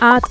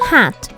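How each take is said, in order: First: The word starts directly with the vowel. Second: The word starts with an h sound.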